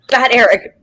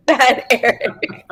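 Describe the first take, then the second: First: Laughing mock scold. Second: Slow, drawn-out mock scold. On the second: Guest teasingly scolding her husband, slow and playful. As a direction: tease him like a naughty pet. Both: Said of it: "No, I wanted to say".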